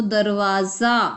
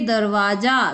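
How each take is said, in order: First: दरवाजा said slowly with z for ज, darwaaza; slow nukta pronunciation. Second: Said in the usual way. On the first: Shown as a demonstration. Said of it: "उचित स्थान पर नुक्ता लगाकर". (दरवाजा को धीरे धीरे दरवाज़ा बोलें) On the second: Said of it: "तो दरवाजा".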